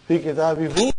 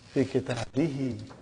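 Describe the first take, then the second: First: The final pronoun ends with an oo vowel. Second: The final pronoun ends with an ee vowel. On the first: The speaker calls it wrong. "It doesn't sound good" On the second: The speaker calls it right. "But now give it a kasra"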